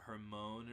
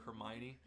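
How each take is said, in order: First: The name is sounded out letter by letter. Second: The name is said with its usual pronunciation. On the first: "I remember when I read it, I called her uh, uh, Hermione or something like that" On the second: "They have the character Hermione"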